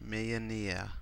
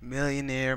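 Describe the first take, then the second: First: The word is said with a French accent. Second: The word is said with an English accent. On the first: "because it's French" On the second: "that's how you say it in an English accent"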